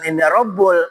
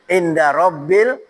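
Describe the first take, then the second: First: The second word ends with an 'ul' sound. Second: The second word ends with an 'il' sound. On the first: The speaker calls it wrong. "bukan Inda Rabbul" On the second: The speaker calls it right. "harus kasroh"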